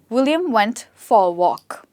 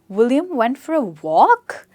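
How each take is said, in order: First: The pitch stays level with little stress. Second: The pitch goes from low to high. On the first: The speaker is thinking or concentrating. "Mostly neutral sentences are sometimes not stressed at all" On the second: It asks a question or shows surprise. "This is the rising tone. So I go from low to high"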